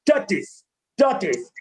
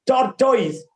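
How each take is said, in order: First: "Tortoise" with a weak "tis" ending, lower; corrected pronunciation. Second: "tortoise" with a full "toys" ending; wrong pronunciation. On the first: Teacher modelling after the error, corrected pronunciation. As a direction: say "tortoise" as "taw-tis", dropping in pitch. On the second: Teacher demonstrating the error, wrong pronunciation. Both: Shown as a demonstration. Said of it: "That is wrong".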